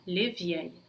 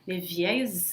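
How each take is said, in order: First: The final S of vieilles is silent. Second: The final S of vieilles sounds like Z. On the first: "eu não pronunciaria o S no final, eu falaria les vieilles" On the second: "esse S no final de vieille vai se pronunciar como se fosse um Z"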